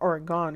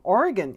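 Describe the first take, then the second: First: The last syllable is drawn out, like 'gone'. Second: The last syllable is short, like 'gun'. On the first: The speaker calls it wrong. "It's not Oregon because Oregon's not going anywhere" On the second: The speaker calls it right. "I pronounce it properly"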